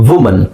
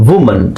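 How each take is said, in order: No difference in how they are said.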